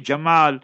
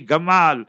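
First: The name begins with a soft j sound. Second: The name begins with a hard g sound. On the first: "the Egyptians don't say Jamal" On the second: "they make it a gaf, they say Gamal"

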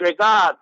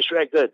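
First: The name is said in an imitated accent. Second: The name is said in a plain, ordinary way. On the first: "You know Didat style. He said Shregat" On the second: "He wouldn't say Shregat"

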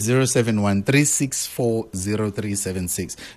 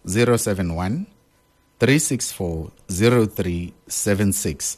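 First: The number is read at normal speed. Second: The number is read slowly and deliberately.

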